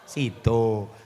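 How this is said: The final vowel is pronounced as o. This is how eastern speakers read it. "angger wong wetan kan tulisannya sida tapi nek maca sido"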